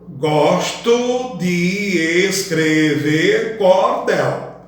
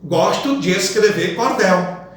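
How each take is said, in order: First: Every syllable is said separately, with no elision. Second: De and es merge into one syllable naturally. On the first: The speaker calls it wrong. "você nunca vai pronunciar" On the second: The speaker calls it right. "Perceba a elisão da sílaba de mais es"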